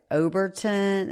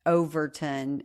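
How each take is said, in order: First: Overton said as Oberton, with a b and slowed; officer reading back Overton as Oberton; name misheard. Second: Overton said plainly with a clear v sound; correct name. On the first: Fireman mishears her surname, slow Oberton. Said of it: "Okay, the way it sounds". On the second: Wife corrects the fireman's reading, plain Overton. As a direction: she corrects him with a crisp v in Overton. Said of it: "And I spelled it". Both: Retold or imitated.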